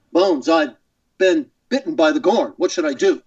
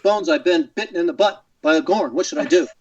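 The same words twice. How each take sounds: First: Halting, earnest starship captain; Captain Kirk. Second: Dramatic captain in choppy phrases; Captain Kirk. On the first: Guest re-creating his old voicemail gag, halting captain. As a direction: plead for advice in broken, dramatic phrases. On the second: Guest correcting his old voicemail line, mock-serious captain. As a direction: deliver the silly injury with grave, halting urgency. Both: Shown as a demonstration. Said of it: "and then Kirk would say".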